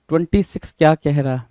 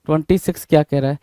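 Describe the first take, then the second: No difference in how they are said.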